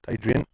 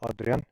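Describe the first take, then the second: First: The name is pronounced a non-Afrikaans way. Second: The name is pronounced the Afrikaans way. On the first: The speaker calls it wrong. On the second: The speaker calls it right. "the way you pronounce that name in Afrikaans"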